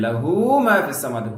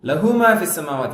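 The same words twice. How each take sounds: First: The vowel in 'hu' is lengthened. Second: The vowel in 'hu' is short. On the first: The speaker calls it right. "ஹு என்பது நீட்டப்பட வேண்டும்" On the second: The speaker calls it wrong. "அது தப்பு"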